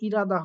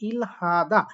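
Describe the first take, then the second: First: The h is dropped, making a flap r. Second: The h sound is pronounced after the l. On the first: The speaker calls it right. "উচ্চারণটা আসলে ইরাদা হওয়ার কথা" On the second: The speaker calls it wrong. "সেখানে বলছে ইলহাদা"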